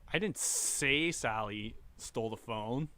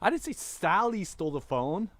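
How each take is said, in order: First: The word 'say' carries the main stress. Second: The word 'Sally' carries the main stress. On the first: It was conveyed without words. "I gestured it" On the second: A different person stole it. "It was Johnny"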